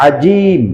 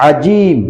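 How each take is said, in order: The two takes are said the same way.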